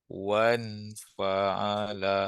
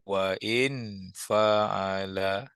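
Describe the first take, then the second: First: 'Wa' runs straight into 'n' without a break. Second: A glottal stop separates 'wa' from 'in'. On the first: The alif is a connecting alif that is not pronounced. "Yang ni tak bunyi" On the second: The hamzah is a true hamzah that is pronounced. "kalau ada waw kena bunyi ni"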